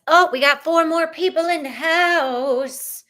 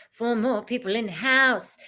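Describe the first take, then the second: First: High, loud singsong whoop; excited announcement. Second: Said in the usual way. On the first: Real, not acted. Host hails four new chat arrivals, excited singsong. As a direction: announce it big, stretching the last word.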